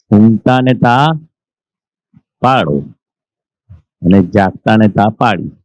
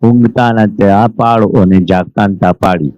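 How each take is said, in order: First: ઊંઘતા ને ત્યાં, long pause, પાળો, long pause, અને જાગતા ને ત્યાં પાડી; slow quoted saying. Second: Said in the usual way. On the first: Shown as a demonstration. Teacher spelling out a saying to listeners, with pauses. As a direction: set each part of the saying apart with long pauses. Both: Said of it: "એવું દાદા ભગવાનના વાણીમાં છે".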